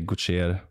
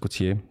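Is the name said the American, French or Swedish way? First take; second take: Swedish; French. First: The name is said the Swedish way. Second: The name is said the French way.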